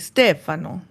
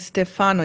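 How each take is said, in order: First: The stress is on the first syllable. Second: The stress is on the second syllable. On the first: The speaker calls it right. "you say Stefano, right? Isn't that the the en- enunciation on the first syllable?" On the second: The speaker calls it wrong. "you don't say Stefano"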